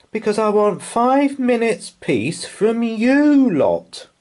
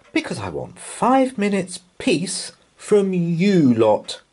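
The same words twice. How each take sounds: First: Louder, firm and fed up, not whispered. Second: Hushed whisper, half voiceless. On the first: Mum telling the children she wants peace, firm and loud. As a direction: say it out loud and final. Mother answers children firmly. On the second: Mum to the children, wanting peace, whispered. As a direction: breathe the line out under your breath. Mother wants peace from kids. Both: A narrator's reading.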